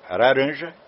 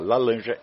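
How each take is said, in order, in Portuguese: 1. É dita com um sotaque japonês imitado. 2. É dita com um sotaque chinês imitado. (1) "ele é japonês" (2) "ele é chinês"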